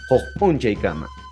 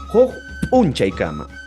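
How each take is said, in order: First: The popping p sound is light and subtle. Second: The popping p sound is strongly exaggerated. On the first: "se pronuncia de manera muy sutil" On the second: "no es tan exagerado"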